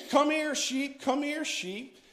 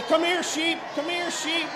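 First: A lightly voiced shepherd calling, a bit higher; shepherd's call. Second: High, loud call for the sheep; shepherd's shout. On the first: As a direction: recall the call gently, not shouted. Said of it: "they would holler for their sheep". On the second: Shown as a demonstration. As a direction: holler for the flock across the field. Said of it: "Call, say".

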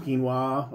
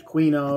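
First: "quinoa" said as KEEN-wah; "quinoa" with keen- start and -wah ending; corrected pronunciation. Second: "quinoa" said as kwin-OH-ah; "quinoa" with kw- start and a long -oh; mispronounced. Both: Real, not acted.

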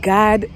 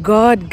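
First: "God" with an open ah; "God" like "Gahd", unrounded; American pronunciation. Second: "God" with a rounded o; "God" with an African English vowel; Kenyan pronunciation. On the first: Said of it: "they call God". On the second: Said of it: "So it's like". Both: Shown as a demonstration.

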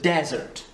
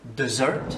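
First: English "desert" said DEZ-ert; stress on first syllable. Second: English "dessert" said de-ZERT; stress on second syllable. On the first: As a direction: punch the DEZ of "desert", slowly. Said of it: "C'est ici qu'on accentue". (« desert » accentué sur la première syllabe) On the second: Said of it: "Ça c'est accentué ici". (« dessert » accentué sur la deuxième syllabe) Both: Shown as a demonstration.

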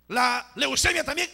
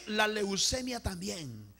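First: Loud, high, rising call; emphatic preacher's call; raised call. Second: Drawn-out, falling repeat; measured, stretched echo; slow solemn repeat. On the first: Each illness called, then repeated slowly. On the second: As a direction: repeat it slowly, easing off. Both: Real, not acted.

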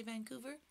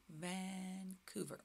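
First: Said in the usual way. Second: "Vancouver" slow and soft, Van-couver; slow modelling. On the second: Shown as a demonstration. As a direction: stretch "Van", pause, then "couver". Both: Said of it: "Can you say Vancouver?".

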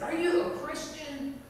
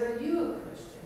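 First: High-pitched, startling question; bold challenge. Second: YOU lifted higher, turning the question back; stress on YOU. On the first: Beggar grabs her cross and questions her, bold challenge. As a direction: put it boldly, as a direct challenge. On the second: Woman asks the bold beggar in return, YOU stressed. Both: Retold or imitated.

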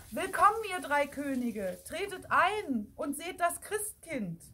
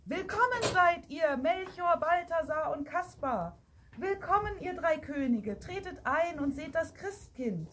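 First: Energetic call. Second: High, ceremonious welcoming call; raised-pitch proclamation, moderately loud. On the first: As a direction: summon them in firmly. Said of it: "hörte man erneut und energischer". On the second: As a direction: announce the guests to the whole church. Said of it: "hörte man den lauten Ruf". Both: A narrator's reading.

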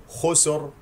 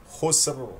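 First: "خسر" as khusor, with an extra vowel; wrongly vowel the س in "خسر"; mistaken voweled س. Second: "خسر" as khusr, no vowel after س; correct silent س. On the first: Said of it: "وهنالك من يقول". (نطق "خسر" خطأً بتحريك السين) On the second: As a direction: hiss the س straight into ر in "خسر". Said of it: "سين ساكنة فيها". (نطق "خسر" بسين ساكنة) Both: Shown as a demonstration.

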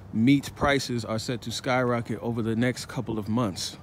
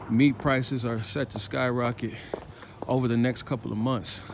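No difference in how they are said.

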